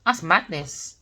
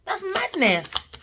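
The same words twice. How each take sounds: First: Said in the usual way. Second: High, slow, stretched disbelief; incredulous. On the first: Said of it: "repeated with rising disbelief". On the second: Real, not acted. Tarot reader repeating in disbelief, high and slow. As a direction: drag it out in disbelief. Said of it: "repeated, high and slow".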